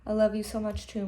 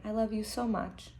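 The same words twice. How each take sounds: First: Said in the usual way. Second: Hushed, tender bedtime voice; soft mother. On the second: Acted. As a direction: soothe a child to sleep. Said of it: "she said very softly".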